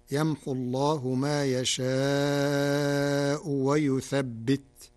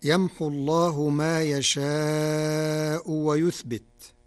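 First: "ويثبت" with a doubled ب, wa yuthabbit; slow recitation stressing the shadda in "ويثبت"; Warsh reading. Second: Said in the usual way. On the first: Shown as a demonstration. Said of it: "بالتشديد، فتصير". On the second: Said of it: "قرأ ورش كلمة ويثبت".

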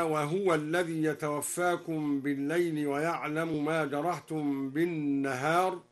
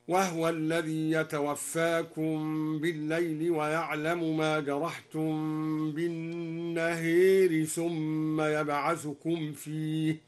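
First: "وهو" with voiced ha and damma, "بالنهار" with open a; standard recitation. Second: "وهو" with silent ha, "بالنهار" with bent a toward e; al-Duri reading. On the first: Teacher reciting the standard reading before al-Duri's, plain chant. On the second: Teacher demonstrates al-Duri's reading, slow tarteel. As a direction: say wahwa, lean the a of "بالنهار" toward e, slowly. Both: Shown as a demonstration. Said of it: "سكن الدوري الهاء وأمال النهار هكذا".

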